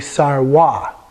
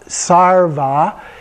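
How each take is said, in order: First: The middle consonant is a W sound. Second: The middle consonant is a V sound. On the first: This is the Tibetan pronunciation. "you'll hear Tibetans say sarwa" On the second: This is the Sanskrit pronunciation. "which is pronounced that way in Sanskrit"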